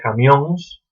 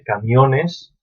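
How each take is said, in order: First: It ends in a nasal -óns. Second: It ends in a full -ones syllable.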